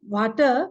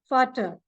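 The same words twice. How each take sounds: First: The word begins with a V sound. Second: The word begins with an F sound. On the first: The speaker calls it wrong. "It is not Vater" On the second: The speaker calls it right. "V is pronounced as F in German"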